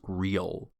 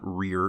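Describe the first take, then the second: First: The word ends in a clear L sound. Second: The word ends in an R-like sound. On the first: The speaker calls it right. "it's real" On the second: The speaker calls it wrong. "it was sounding more like an R. So it's not rear"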